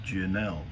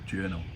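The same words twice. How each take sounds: First: The word has a non-English pronunciation. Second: The word has an English pronunciation.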